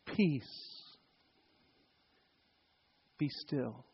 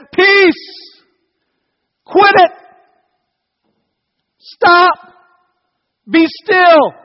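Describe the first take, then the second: First: Very soft, low, gentle hush; nice, comforting. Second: High, loud, sharp shouts; strong rebuke. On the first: Shown as a demonstration. Jesus to the sea as people imagine it, comforting. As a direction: soothe them softly with calm words. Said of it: "you want it to be that nice, comforting". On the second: Acted. Jesus waking up to rebuke the storm, shouting. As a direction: shout commands like a just-woken, fed-up parent. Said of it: "to strongly speak against".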